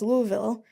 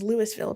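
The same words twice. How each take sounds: First: The s in the first part is silent. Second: The first part sounds like Lewis. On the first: The name follows a French pronunciation. "which is pronounced Louisville, probably because of French people" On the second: The name comes from a person called Lewis. "which is Louisville, probably because of Lewis"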